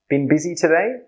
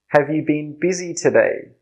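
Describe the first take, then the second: First: It is said quickly with the opening words dropped. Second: It is said slowly with every word included.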